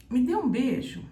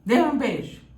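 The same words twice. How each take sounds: First: Loving request voice; gentle request. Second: Loud, firm order; bossy command. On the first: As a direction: ask sweetly for a kiss. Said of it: "Se você falar assim". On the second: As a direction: demand it with authority. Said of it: "Ou você falar assim". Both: Shown as a demonstration.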